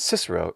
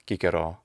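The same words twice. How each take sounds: First: It starts with an s sound, English style. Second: It starts with a k sound, Latin style. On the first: "That's just about as far away as Cicero is from the actual pronunciation" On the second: "the actual pronunciation of his name in the time that he lived, which was Cicero"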